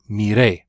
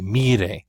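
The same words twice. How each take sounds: First: The stress is on the last syllable. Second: The stress is on the first syllable. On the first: I looked. "It's important that you stress that last syllable" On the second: It tells someone to look. "If you don't stress that last syllable, it sounds like a command"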